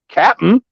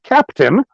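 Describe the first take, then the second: First: The word is clipped, with no middle t sound. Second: The word is said in full, with a t sound. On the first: The speaker calls it right. "It's the real Captain, C A P N" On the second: The speaker calls it wrong. "not Captain"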